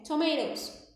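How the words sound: The middle T sounds like a quick R. "o inglês americano... o T muitas vezes ele vira um R"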